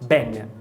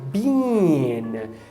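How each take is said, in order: First: The vowel is a short, relaxed i sound. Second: The vowel is a long, tense ee sound. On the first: "aqui tem uma redução para o I relaxado" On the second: "A vogal é o I longo"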